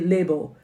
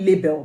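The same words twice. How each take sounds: First: Label is said in an Australian accent. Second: Label is said in the speaker's home-country accent. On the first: "but here they say label" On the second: "we'll call it label back home"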